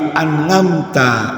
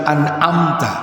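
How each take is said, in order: First: The middle consonant is an 'ng' sound. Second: The middle consonant is a throat sound. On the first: "tapi an'amta ngalaihim ... Ngain" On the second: "Beliau tidak bisa bilang an'amta"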